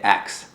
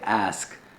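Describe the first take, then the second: First: It ends with a ks sound, Detroit style. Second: It ends with the standard sk sound.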